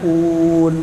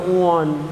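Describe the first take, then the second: First: The vowel is a clear, closed u sound. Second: The vowel is opened toward an o sound. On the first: The speaker calls it right. "adanya un" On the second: The speaker calls it wrong. "nggak ada baca Quran un"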